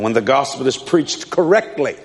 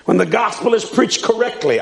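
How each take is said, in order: First: Said in the usual way. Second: Emphasize the word "correctly" firmly; stress on correctly. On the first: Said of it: "write this down". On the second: Real, not acted. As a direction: raise the pitch and underline "correctly" for the listeners. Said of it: "I emphasize the word correctly".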